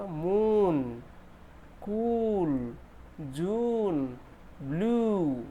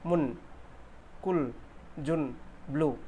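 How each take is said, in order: First: "मून", "कूल", "जून" with a long stretched oo; slow, drawn-out correct vowels. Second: "मुन", "कुल", "जुन" with a short quick u; clipped short oo. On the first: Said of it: "कैसे pronunciation होगा". (सही, लंबा खिंचा "ऊ") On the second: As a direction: mimic a non-native short vowel. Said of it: "ये wrong pronunciation है". (छोटा "उ", गलत उच्चारण) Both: Shown as a demonstration.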